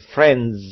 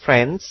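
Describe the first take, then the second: First: The final consonant is voiced, with vibration. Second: The final consonant is voiceless, without vibration. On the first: The speaker calls it right. "tapi friends" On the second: The speaker calls it wrong. "Anda tidak mengucapkan friends"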